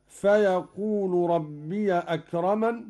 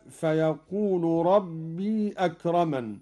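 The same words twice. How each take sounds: First: ربي said "rabbiya" before أكرمن; fatha on ya. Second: ربي with a long "rabbee" before أكرمن; still ya. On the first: Teacher showing Qalun's reading, ربي as "rabbiya". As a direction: open the ي of ربي to a short "ya". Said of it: "هكذا". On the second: Teacher citing the verse, ربي as long "rabbee". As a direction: hold the ي of ربي without a following vowel. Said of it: "بفتح ياء ربي". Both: Shown as a demonstration.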